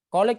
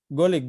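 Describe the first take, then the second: First: The first sound is said like k. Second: The first sound is said like g.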